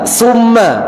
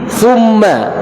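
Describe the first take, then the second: First: The word starts with a hissing s sound. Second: The word starts with a tongue-between-teeth th sound. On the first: The speaker calls it wrong. "bukan terucap seperti ini Pak, sa, enggak" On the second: The speaker calls it right. "Jadi tha"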